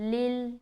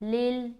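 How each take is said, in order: No difference in how they are said.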